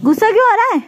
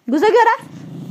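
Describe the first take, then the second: First: Louder teasing. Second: Teasing question. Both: Real, not acted. Teasing the angry pet.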